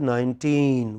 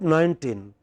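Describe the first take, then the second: First: The stress is on the second syllable. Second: The stress is on the first syllable. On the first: The speaker calls it right. "it is nineteen" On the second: The speaker calls it wrong. "by mistake we pronounce that nineteen. It is not nineteen"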